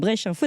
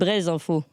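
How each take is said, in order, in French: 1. Le premier mot se termine par un son 'sh'. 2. Le premier mot se termine par un son 'z'. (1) "est-ce que je prononce bien?" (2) "on me dit que c'est Braise Info"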